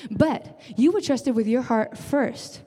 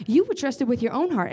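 First: Were pressed hard, the whole line slowed right down; stress on were. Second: Said in the usual way. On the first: Shown as a demonstration. Pastor repeating to the church, stress on were. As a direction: lean on were and take your time.

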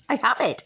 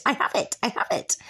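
First: Said in the usual way. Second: Hushed, breathy repeat; whispered. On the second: Real, not acted. Telling listeners she owns the house, whispered. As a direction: whisper it to yourself, savouring. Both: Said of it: "fucking have that".

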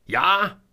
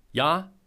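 First: Laut und hoch gebrülltes Ja. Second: Said in the usual way. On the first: A narrator's reading. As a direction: das Ja ins Telefon brüllen. (der Chef brüllt Selma durchs Telefon an, laut gebrüllt) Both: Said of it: "brüllte Jonas Haberer".

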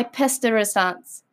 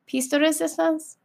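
First: "piste de resistance" with a French nasal ending, resistance as "ree-see-STAHNS"; "piste de resistance" said "pest uh ree-sahns"; French-style piste de resistance. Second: "Piste de resistance" with an English resistance, "ree-SIS-tahns", rising like a question; "Piste de resistance?" with "piste" as "peest", slightly higher and softer; unsure retry. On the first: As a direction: say "piste de resistance" the French way, in one smooth run. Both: Shown as a demonstration. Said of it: "I know I said that wrong".

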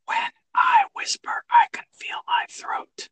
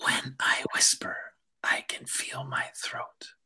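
First: Slow unvoiced whisper. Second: Whisper. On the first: Student echoing the teacher's line in a whisper. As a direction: echo the teacher in breath only. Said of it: "repeat after me". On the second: Teacher leading a whisper breathing exercise, whispering. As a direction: let the words out on breath alone. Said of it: "Say it in a whisper". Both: Shown as a demonstration.

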